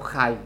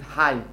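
First: It starts with a scraping kh sound. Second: It starts with a deep throaty h sound. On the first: The speaker calls it wrong. "לא חי" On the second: The speaker calls it right. "תגיד חי"

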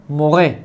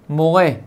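The two takes are said the same way.

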